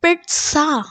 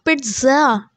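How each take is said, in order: First: Pizza as PIT-sa, crisp ts; correct pronunciation. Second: Pizza as PIT-za, with a buzzed z; mispronunciation. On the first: Teacher modelling the word for students, correctly pronounced. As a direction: say pizza with a t before a hissed s. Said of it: "the correct pronunciation is". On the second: Teacher showing students the error to avoid, mispronounced. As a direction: say pizza with z instead of s. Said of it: "It's not pizza". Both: Shown as a demonstration.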